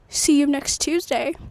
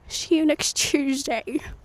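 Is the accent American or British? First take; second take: American; British. First: It is said in her usual non-British accent. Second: It is said in a put-on British accent.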